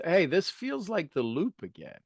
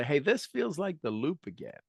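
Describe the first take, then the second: First: Said in the usual way. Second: Said with a smile, a touch softer; gently smiling self-talk. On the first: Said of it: "and say". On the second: Shown as a demonstration. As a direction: let the smile be heard in the voice. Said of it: "Put a smile on your face and say".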